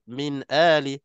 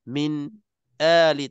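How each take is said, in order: First: 'Min' flows into 'ali' without a stop. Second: There is a brief stop after 'min'. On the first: The speaker calls it right. "Kena min ali" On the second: The speaker calls it wrong. "tak nak macam tu"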